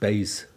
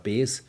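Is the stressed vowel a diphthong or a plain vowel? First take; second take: diphthong; plain vowel. First: The vowel glides as a diphthong. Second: The vowel is a single plain vowel. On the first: This is how it is said north of the Danube. "Nördlich der Donau natürlich Beis" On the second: This is how it is said south of the Danube. "das Wort böse heißt südlich der Donau ja bes"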